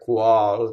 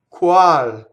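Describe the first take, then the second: First: The w-sound is made with the tongue low. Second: The w-sound is made with the tongue high. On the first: The speaker calls it wrong. "a W in Italian is not here, qual, down" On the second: The speaker calls it right. "It's from the U position. So it's way up"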